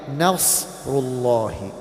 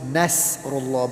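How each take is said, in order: First: The s sound is heavy and thick. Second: The s sound is light and thin. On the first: The speaker calls it right. "And a sad, we read it like Nasrullah" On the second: The speaker calls it wrong. "often pronounced with a sin"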